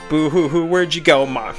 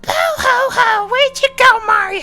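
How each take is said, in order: First: It is said in his normal voice. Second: It is said in a put-on Toad voice.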